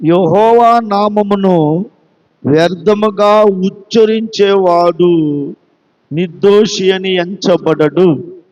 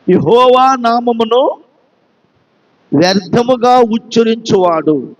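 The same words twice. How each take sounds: First: Slow and lower, every word weighed; slow scripture reading. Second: Said in the usual way. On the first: Shown as a demonstration. Preacher reads the commandment to his church, slow and solemn. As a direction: read the commandment out slowly and solemnly. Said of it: "నిర్గమకాండము ఇరవై అధ్యాయం ఏడవ వాక్యం చూడండి". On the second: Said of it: "అది".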